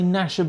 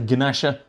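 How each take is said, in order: First: The word starts with an N sound. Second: The word starts with a G sound.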